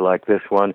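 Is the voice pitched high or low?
low. The voice is pitched low. "and one voice that's lower"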